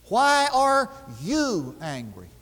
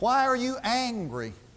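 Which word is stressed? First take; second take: you; angry. First: The stress falls on the word 'you'. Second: The stress falls on the word 'angry'. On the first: The question is about this person of all people being angry. The speaker calls it right. "The emphasis should be placed on the you" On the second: The question is about the anger itself. The speaker calls it wrong. "we put the emphasis on the word angry"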